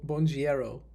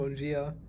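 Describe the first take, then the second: First: The greeting ends with an extra 'ero' sound. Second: The greeting ends in a short 'a' sound. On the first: The speaker calls it wrong. "I was saying it wrong" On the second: The speaker calls it right. "I started saying bongia"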